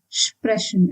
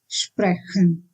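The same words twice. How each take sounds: First: The ch sounds like a soft sh. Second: The ch sounds like a throaty h. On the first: The speaker calls it right. "ch is pronounced as sh" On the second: The speaker calls it wrong. "and not sprechen"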